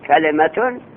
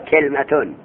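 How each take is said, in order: First: A vowel is heard between the l and m. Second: No vowel is heard between the l and m. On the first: "به کسر لام" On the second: "به سکون لام"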